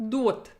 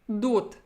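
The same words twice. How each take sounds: Both takes have the same delivery.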